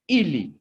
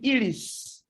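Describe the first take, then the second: First: No final S sound is pronounced at the end. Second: A final S sound is pronounced at the end. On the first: The speaker calls it right. "We say ili" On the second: The speaker calls it wrong. "here we don't say ilis"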